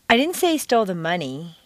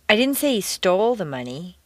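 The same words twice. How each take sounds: First: The stress is on the word money. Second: The stress is on the word stole.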